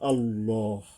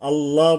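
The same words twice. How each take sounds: First: The l is heavy with a darkened vowel. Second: The l is light with a bright a vowel. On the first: The speaker calls it right. "আল্লাহ এইভাবে" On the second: The speaker calls it wrong. "আল্লাহ বলবো না আমরা"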